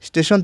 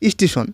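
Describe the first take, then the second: First: It starts directly with the st cluster. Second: An i vowel is added before the st cluster. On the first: "স্টেশন থেকে" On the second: "স্টেশনের আগে কি আসছে, রস্বই আসছে"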